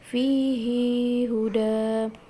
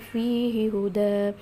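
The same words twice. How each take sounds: First: The pronoun vowel is lengthened before the next word. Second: The pronoun vowel is kept short before the next word. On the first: This follows the reading of one reciter. "Ibnu Katsir membaca dengan silah" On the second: This follows the reading of the other reciters. "nggak uh, ada silahnya"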